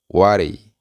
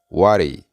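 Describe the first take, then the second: First: The words are blended into one reduced word. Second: The same.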